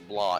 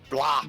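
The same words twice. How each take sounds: First: The word is said at a normal, quiet level. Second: The word is said loudly, as if shouted. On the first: The speaker calls it wrong. "It's not blah" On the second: The speaker calls it right. "I gotta say it like that because it's in all caps"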